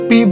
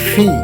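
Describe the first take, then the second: First: The p has no puff of breath. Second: The p has a strong puff of breath. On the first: The speaker calls it wrong. "এটাকে আমরা পি বলে থাকি" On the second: The speaker calls it right. "কিন্তু এটা হবে ফি"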